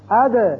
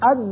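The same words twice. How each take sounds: First: The final consonant is released with a bounce. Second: The final consonant is held without a bounce. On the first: The speaker calls it right. "یہ ہے حروف قلقلہ کی آواز" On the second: The speaker calls it wrong. "اد نہیں کرنا"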